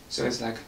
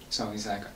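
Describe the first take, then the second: The two takes are said the same way.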